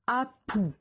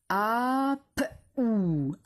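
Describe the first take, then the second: First: Said in the usual way. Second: "Apou" stretched out sound by sound. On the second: Shown as a demonstration. Teacher dictating a syllable to pupils, sounded out slowly. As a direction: draw "Apou" apart into a, p, ou. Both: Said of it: "c'est la syllabe".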